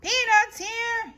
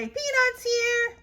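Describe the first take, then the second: First: High loud vendor call; vendor's yell. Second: High echo of the vendor; Eloise echoing. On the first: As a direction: hawk peanuts in the stands. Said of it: "yells a boy". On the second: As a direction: copy the vendor call. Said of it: "I say". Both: Acted.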